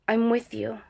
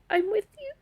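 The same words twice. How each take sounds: First: Said in the usual way. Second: Very high, choked-up pledge through real tears; crying. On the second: Real, not acted. Survivor retelling her pledge to a soldier, crying. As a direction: say it high, on the edge of sobbing. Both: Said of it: "I'm gonna cry".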